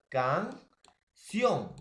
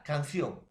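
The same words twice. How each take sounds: First: "canción" as CAN... CIÓN, slow and stretched; drawn-out "canción", weight on the final syllable; stress on last syllable. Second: Said in the usual way. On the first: Shown as a demonstration. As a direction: split "canción" in two and swell on CIÓN. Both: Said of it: "sion es la mayor fuerza de voz".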